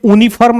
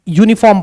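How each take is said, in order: First: यूनिफॉर्म said "OO-ni-farm", with no Y; यूनिफॉर्म misread as "oonifarm"; mistaken reading. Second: यूनिफॉर्म said "YOO-ni-form"; यूनिफॉर्म with an initial Y glide before "oo"; correct Y onset. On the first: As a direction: drop the Y from यूनिफॉर्म, open on "oo". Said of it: "इसलिए यूनिफॉर्म नहीं पढ़ना". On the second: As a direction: start यूनिफॉर्म with a clear Y. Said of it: "यूनिफॉर्म पढ़ना". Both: Shown as a demonstration.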